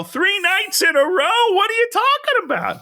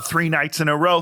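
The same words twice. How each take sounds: First: Much higher, mock-incredulous squawk; incredulous outburst. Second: Said in the usual way. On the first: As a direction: imitate a man exploding in disbelief. Retold outraged man repeats it, escalating.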